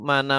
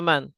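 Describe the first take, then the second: First: The word ends in an a vowel. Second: The word ends in n with no vowel. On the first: The speaker calls it wrong. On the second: The speaker calls it right. "selalu dibaca man"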